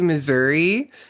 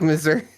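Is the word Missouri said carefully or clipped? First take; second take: careful; clipped. First: The word is carefully enunciated in full. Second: The word is said casually with sounds cut off. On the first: The speaker is trying to sound correct. "when I'm like trying to enunciate correctly" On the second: The speaker is relaxed and caught up in talking. "if I get into it, you'll hear me say like Missouri... my words cut off real bad"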